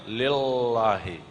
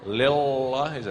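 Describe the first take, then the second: Both takes have the same delivery.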